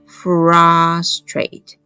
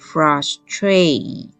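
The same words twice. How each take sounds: First: The first syllable is lengthened and stressed. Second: The second syllable is lengthened and stressed. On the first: "我如果把前面的r 的音念长，它就会变成frustrate" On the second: "如果我念长念慢的是后面的a，这个音会变成frustrate"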